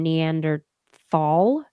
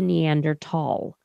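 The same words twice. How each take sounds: First: The middle consonant is a 'th' sound. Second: The middle consonant is a plain 't' sound. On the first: This is the older common pronunciation. "It shifted from Neanderthal" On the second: This is the newer pronunciation, following German. "to Neanderthal"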